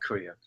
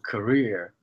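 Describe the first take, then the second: First: The stress is on the first syllable. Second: The stress is on the second syllable. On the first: The speaker calls it wrong. "and not career" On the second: The speaker calls it right. "stress on the second part"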